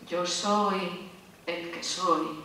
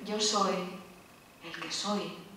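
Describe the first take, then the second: First: It is said in a grand, imposing tone. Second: It is said in a gentle, calm tone. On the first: "uno se queda como sobrecogido" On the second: "Suena diferente"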